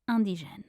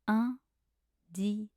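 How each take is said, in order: First: It is said at normal speed. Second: It is said slowly.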